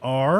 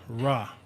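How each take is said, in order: First: The vowel sound comes before the R. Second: The vowel sound comes after the R. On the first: "you could put a vowel sound before it or after it" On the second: "you could put a vowel sound before it or after it"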